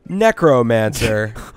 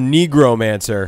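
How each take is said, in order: First: The word is said with a k sound. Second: The word is said with a g sound. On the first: The speaker calls it right. "I always pronounced it Necromancer. You know, like necrosis" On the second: The speaker calls it wrong. "I'm pretty sure you didn't use a C"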